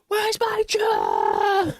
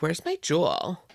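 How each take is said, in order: First: It is said in an angry tone. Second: It is said in a calm tone.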